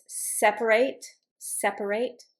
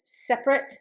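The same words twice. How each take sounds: First: "separate" as SEP-uh-rate, three syllables; middle syllable pronounced. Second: "separate" as SEP-rit, two syllables; middle syllable dropped. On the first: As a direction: sound the middle vowel in each "separate". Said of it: "when I pronounced the middle syllable". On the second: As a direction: leave out the middle vowel in "separate". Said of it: "when I didn't pronounce the middle syllable". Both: Shown as a demonstration.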